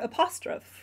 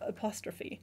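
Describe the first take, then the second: First: It is read out the way it is spelled. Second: It is said with the usual English sounds. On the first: The speaker calls it wrong. "or apostrophe instead of apostrophe" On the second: The speaker calls it right. "instead of apostrophe"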